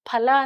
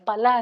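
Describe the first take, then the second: First: The first consonant has a puff of air. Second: The first consonant has no puff of air. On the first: It means fruit. The speaker calls it right. "ಫಲ ಅಂದ್ರೆ ಹಣ್ಣು" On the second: It means meat. The speaker calls it wrong. "ಮಹಾಪ್ರಾಣ ಹೇಳದೆ ಹೋದ್ರೆ"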